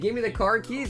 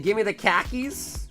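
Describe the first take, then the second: First: The r in car is clearly pronounced. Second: The r is dropped, so it sounds like khakis. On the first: "they don't say" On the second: "In Boston, They say"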